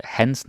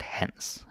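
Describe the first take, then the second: First: "hence" as the Danish possessive Hans, his; Danish pronunciation of Hans. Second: "hence" pronounced as the Danish first name Hans. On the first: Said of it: "hence, not hence". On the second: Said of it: "that's the name". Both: Shown as a demonstration.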